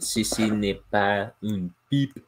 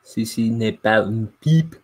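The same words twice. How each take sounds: First: Slow, exaggerated French accent; French reading voice. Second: Louder, confident French accent; French reading voice. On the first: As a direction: read it like a French art label. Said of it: "put on my reading French voice". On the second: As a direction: nail the French phrase. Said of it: "Oh, nailed it". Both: Shown as a demonstration.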